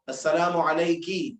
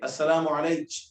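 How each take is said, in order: First: It ends with a k sound and final vowel. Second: It ends with a ch sound and no vowel.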